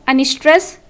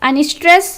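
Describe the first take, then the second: The two takes are said the same way.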